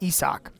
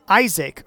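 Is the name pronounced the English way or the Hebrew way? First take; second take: Hebrew; English. First: The name has its Hebrew pronunciation. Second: The name has its usual English pronunciation.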